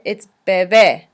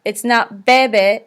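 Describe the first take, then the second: First: Bebé with the last syllable lower and stressed; bebé, accent on the last syllable; stress on final é. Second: Bebe said with flat even stress, slowly; wrong stress bebe. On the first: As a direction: land firmly on the é of bebé. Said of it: "enforce that sound". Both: Shown as a demonstration.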